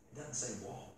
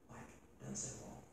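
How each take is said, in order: First: Quiet musing. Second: Hushed whisper, leaning in. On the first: Muses over the word. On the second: Preacher whispers to the congregation, stunned. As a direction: let it drop to a breathy secret. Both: Real, not acted.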